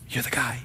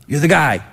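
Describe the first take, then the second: First: Breathless whispered awe; awed whisper. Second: Said in the usual way. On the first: Pretend. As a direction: whisper it like meeting a hero. Awed meeting with Antipas.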